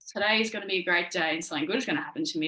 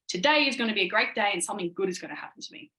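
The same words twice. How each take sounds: First: It is said flatly, with low energy. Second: It is said with lively, confident energy.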